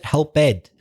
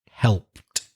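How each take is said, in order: First: The ending is said as an extra syllable. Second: The ending has no extra syllable. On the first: The speaker calls it wrong. "I think you said helped" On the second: The speaker calls it right. "the E is silent"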